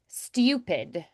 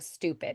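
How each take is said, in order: First: It has a 'y' glide before the vowel. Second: It has a plain vowel with no glide. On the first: "liquid U sound with the ooh" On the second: "instead of stupid"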